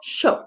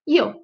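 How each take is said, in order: First: It is said with an Argentine-style initial sound. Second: It is said with a Spain-style initial sound. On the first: "Na Argentina, Uruguai e nas regiões próximas"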